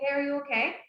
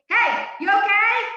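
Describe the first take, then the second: First: It is said quietly and gently. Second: It is said loudly, almost shouted.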